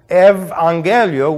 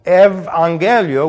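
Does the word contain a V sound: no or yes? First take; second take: yes; yes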